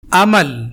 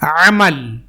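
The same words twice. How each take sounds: First: عمل with a light glottal a at the start; عمل said with plain hamza; hamza amal. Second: عمل with a throat-pressed ع at the start; عمل said with pharyngeal ع; ain amal. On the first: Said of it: "حمزہ زبر ا،". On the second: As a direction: push the first sound of عمل from mid-throat. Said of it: "عین زبر ع،". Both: Shown as a demonstration.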